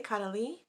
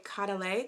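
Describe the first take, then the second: First: "Caudalie" ending in a "lee" sound; alternative pronunciation. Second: "Caudalie" ending in a "lay" sound; pronunciation attempt. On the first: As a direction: say "Caudalie" as cah-duh-LEE, questioningly rising. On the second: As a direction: say "Caudalie" as cah-duh-LAY, tentatively. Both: Shown as a demonstration. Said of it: "I think you say".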